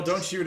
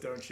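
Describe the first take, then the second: First: Louder, higher echo of a yell; mild mock yell. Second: Said in the usual way. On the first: Game master echoes the player's yell, raised voice. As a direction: repeat the yelled line at raised volume. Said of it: "So, so yell". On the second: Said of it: "or is it just".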